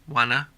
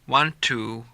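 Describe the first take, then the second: First: The phrase is reduced to wanna. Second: The phrase is said in full.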